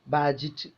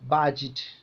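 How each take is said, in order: The two takes are said the same way.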